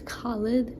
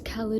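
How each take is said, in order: First: The name is said with an Afghan pronunciation. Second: The name is said with an American pronunciation. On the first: "the Afghani pronunciation" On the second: "the American way"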